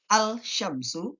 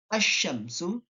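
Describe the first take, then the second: First: The L is pronounced before the sh sound. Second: The L merges into a doubled sh sound. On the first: The speaker calls it wrong. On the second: The speaker calls it right.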